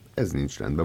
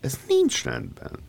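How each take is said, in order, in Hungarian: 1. Mérsékelt hangmagasság, a legmagasabb az első szón. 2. A magas hangmagasság feltűnően magas és túlzó. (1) "Annak a legmagasabban ejtett szótagja az ez az elején" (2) "Na most ők ezt úgy ejtik ... feltűnően magasan"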